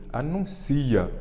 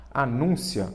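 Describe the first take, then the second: First: Slow, higher "Anuncia", stressed on CI; pronúncia sem acento. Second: "Anúncia" stressed on NUN; pronúncia com acento. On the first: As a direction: say "Anuncia" as a-nun-CI-a, drawn out. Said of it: "Como é anuncia, não tem acento". ("Anuncia" devagar, com o ci forte) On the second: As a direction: say "Anúncia" as a-NÚN-cia. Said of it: "porque se fosse anúncio, teria acento". ("Anúncia" com a sílaba nun forte) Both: Shown as a demonstration.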